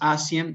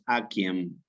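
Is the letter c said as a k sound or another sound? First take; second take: another sound; k sound. First: The c is not said as a k sound. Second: The c is said as a k sound. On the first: The speaker calls it wrong. "Nunca es aciem" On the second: The speaker calls it right. "la pronunciación con una K"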